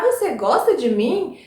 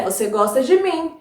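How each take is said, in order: First: "Você gosta de mim" asked, rising on "mim"; question intonation. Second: "Você gosta de mim" stated, falling at "mim"; statement intonation. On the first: Teacher shows pupils how to ask it, questioning. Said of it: "se a gente quer perguntar". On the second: Teacher shows it read without question mark, affirming. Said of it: "parece que a pessoa está afirmando". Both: Shown as a demonstration.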